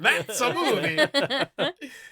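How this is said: It is said in a put-on Italian accent.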